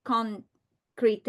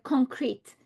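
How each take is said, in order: First: CONCRETE broken up as con, cree-TAY; final E sounded. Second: CONCRETE as two syllables, CON-creet; silent final E. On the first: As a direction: say concrete with its silent E voiced, rising at the end. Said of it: "because the E at the end did not". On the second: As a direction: say concrete ending on a clean T. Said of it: "the E at the end did not". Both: Shown as a demonstration.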